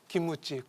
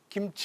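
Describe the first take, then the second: First: An extra vowel is added after the first syllable. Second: It is said with no vowel after the first syllable. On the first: "김우치 그러지 않습니까?" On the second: "김치 못해요"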